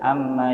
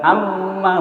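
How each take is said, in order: First: The m flows smoothly without added pressure. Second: The m is pressed hard and held. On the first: The speaker calls it right. "tidak ada penekanan di sini, mengalir saja" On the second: The speaker calls it wrong. "bukan begitu, ditekan, bukan"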